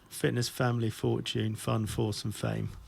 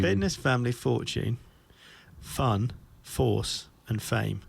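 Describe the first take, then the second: First: The list is said at a normal, quick pace. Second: The list is said slowly and deliberately.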